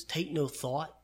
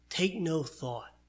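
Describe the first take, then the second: First: Said in the usual way. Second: Slow emphasis. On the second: Shown as a demonstration. Preacher repeats key phrase slowly.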